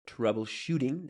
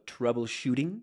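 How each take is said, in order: No difference in how they are said.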